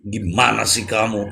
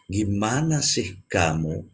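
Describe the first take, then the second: First: It is said a bit higher, more intense. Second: It is said at a calmer level.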